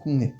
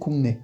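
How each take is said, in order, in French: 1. La première syllabe se termine par un son ng. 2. La première syllabe se termine par un son ng.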